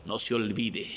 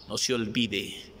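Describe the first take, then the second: No difference in how they are said.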